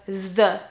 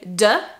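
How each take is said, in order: First: It begins with a tongue-between-teeth th sound. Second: It begins with a d sound. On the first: The speaker calls it right. "place your tongue between your teeth" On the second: The speaker calls it wrong. "Usually people say de"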